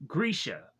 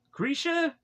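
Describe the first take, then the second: First: Said in the usual way. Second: "Grisha" much higher, puzzled; puzzled question. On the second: Real, not acted. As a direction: ask "Grisha?" as if the name makes no sense. Questioning the name.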